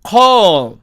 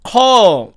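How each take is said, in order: First: The final L is cut short. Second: The final L is cut short.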